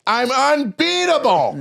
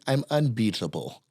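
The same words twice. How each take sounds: First: Loud, high, drawn-out proclamation; imitated shouted boast. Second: Understated boast. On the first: Poker opponent answering another all-in, high shouted mock boast. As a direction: bellow it high, stretching every syllable. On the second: Retold or imitated. Opponent at home poker game declares himself, understated imitated boast.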